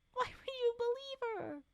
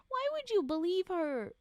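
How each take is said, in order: First: "Why would you believe her" much higher, squeaky; squeaky incredulous. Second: High, loud incredulous question; can't believe this. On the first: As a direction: push "you" up high in disbelief. Repeated even higher. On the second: Incredulous at the story. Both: Real, not acted.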